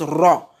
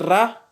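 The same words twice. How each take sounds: First: The R is heavy and emphatic, with a full sound. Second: The R is light, with no emphasis. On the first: The speaker calls it right. "quand la lettre Ra porte un fataha, elle se prononce Ra" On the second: The speaker calls it wrong. "au lieu de dire Ra, comme les gens ont l'habitude de le dire"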